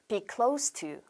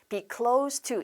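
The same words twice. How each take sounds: First: The word close ends with a hissing s sound. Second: The word close ends with a buzzing z sound. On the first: The speaker calls it right. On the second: The speaker calls it wrong.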